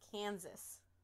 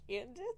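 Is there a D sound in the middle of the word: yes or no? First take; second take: no; yes. First: The middle consonant has no D sound. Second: The middle consonant sounds like a D. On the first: The speaker calls it right. "Is that better?" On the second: The speaker calls it wrong. "There's no D in Kansas"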